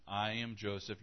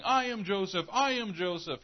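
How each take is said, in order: First: Soft, steady, gentle reveal; calm revelation. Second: High, loud frantic shout of his name; crazed outburst. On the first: Joseph gently revealing himself to his brothers, softly. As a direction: say it quietly, simply, as a brother. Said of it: "Then he said". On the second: Joseph snapping at his frightened brothers, shouting. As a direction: snap and yell it like a man gone mad. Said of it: "the guy just snaps and starts going". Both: Retold or imitated.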